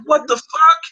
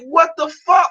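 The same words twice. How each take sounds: First: High, loud incredulous yell; retold outraged what the fuck; shocked shout. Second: Even higher, loud incredulous yell; retold outraged what the fuck, louder; shocked shout. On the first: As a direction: blurt it out in disbelief. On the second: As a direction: shout it again, more outraged.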